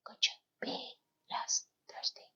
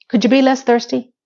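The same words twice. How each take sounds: First: Very soft, voiceless whisper; whispered aside. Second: Said in the usual way. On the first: Real, not acted. Repeats the remark in whisper.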